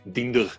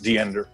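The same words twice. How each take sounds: First: The name is said with a German accent. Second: The name is said with an American accent. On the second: "U S English, American English"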